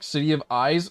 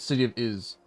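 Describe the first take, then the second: First: The last word has a long 'eye' sound. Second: The last word has a short 'i' sound. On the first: The speaker calls it wrong. "City of Eyes sounds dumb" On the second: The speaker calls it right. "I've always said City of Is"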